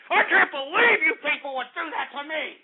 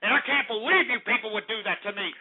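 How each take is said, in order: First: Outraged disbelief. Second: Said in the usual way. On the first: Real, not acted. Host to callers who betrayed him, outraged disbelief. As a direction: hammer it out in wounded outrage.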